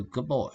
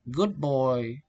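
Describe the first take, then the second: First: Put-on "good boy" run together, the d melting into the b; "good boy" with no separate d sound; assimilation. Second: Said in the usual way. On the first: Shown as a demonstration. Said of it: "the specific processes is assimilation". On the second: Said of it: "Learners only know the dictionary from words".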